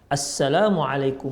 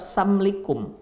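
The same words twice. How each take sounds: First: Every syllable of the greeting is fully pronounced. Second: The greeting is shortened with syllables dropped. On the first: It is a proper prayer of peace. The speaker calls it right. "dengan ucapan yang benar, jangan disingkat-singkat" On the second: The shortened words carry a meaning of harm. The speaker calls it wrong. "ucapkan salam tapi singkat-singkat"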